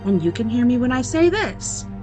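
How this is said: It is spoken at a very high pitch. "It spoke this time at a much higher pitch"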